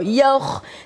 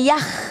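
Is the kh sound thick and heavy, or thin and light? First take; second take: thick; thin. First: The kh sound is thick and heavy. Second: The kh sound is thin and light. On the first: The speaker calls it right. "bunyi tu besar tau" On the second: The speaker calls it wrong. "Dia tu bunyi nipis"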